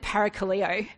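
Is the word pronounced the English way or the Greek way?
English. The word is pronounced the English way. This is how a non-Greek speaker would say it. The speaker calls it wrong. "I would have said"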